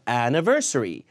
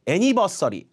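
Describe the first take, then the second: First: The 'ni' syllable has a reduced schwa vowel. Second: The 'ni' syllable has a full 'nee' vowel. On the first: The speaker calls it right. "ni 음절은 니가 아니라 느로 죽여야죠" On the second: The speaker calls it wrong. "아예 이해 못합니다"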